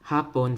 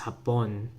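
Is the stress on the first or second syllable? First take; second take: first; second. First: The stress is on the first syllable. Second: The stress is on the second syllable.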